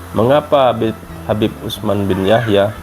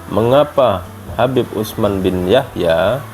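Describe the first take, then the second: No difference in how they are said.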